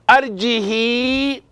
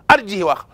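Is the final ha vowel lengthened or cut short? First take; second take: lengthened; cut short. First: The final ha is followed by a lengthened vowel. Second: The final ha is cut short without lengthening. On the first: "If it was not because of the context, it could have been what?" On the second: "the rule, it is there, but you don't say it"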